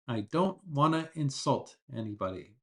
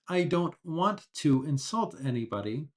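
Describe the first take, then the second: First: Want to is said quickly, reduced to wanna. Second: Want to is said slowly as two full words. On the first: "the natural way is wanna" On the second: "if you're speaking slowly"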